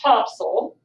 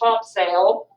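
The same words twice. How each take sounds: First: The name is said the way locals say it. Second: The name is said as it is written. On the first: "but they pronounce it Topsail" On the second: "it's called Topsail"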